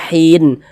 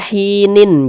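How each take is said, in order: First: The word ends cut short on the n. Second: The word ends with an extra -in syllable. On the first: The reader stops on the word. The speaker calls it right. "tapi dibaca hin" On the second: The reader does not stop on the word. The speaker calls it wrong. "Jangan dibaca hinin"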